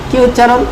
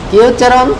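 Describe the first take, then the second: Both takes have the same delivery.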